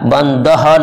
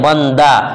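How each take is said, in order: First: The word ends with an audible h sound. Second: The word ends in a plain long a vowel. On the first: The speaker calls it wrong. "बंदह नहीं बोलते हैं" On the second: The speaker calls it right. "आवाज़ अलिफ की तरह"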